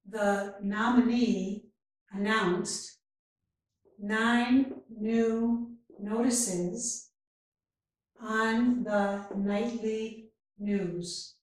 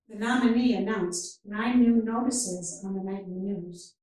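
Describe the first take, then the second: First: The sentence is spoken very slowly. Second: The sentence is spoken at natural speed. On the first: "first very slowly" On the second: "and then at a more natural speed"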